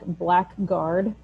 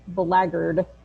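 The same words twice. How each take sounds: First: It is pronounced just as it is spelled. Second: It is pronounced differently from its spelling. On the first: The speaker calls it wrong. "it does look like blackguard" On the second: The speaker calls it right. "but it is pronounced blackguard"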